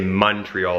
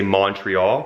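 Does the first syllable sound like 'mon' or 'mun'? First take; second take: mun; mon. First: The first syllable has a 'u' vowel. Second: The first syllable has an 'o' vowel. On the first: Locals say it this way. "like with a U" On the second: Other people say it this way. "because it's M O N. So they say Montreal"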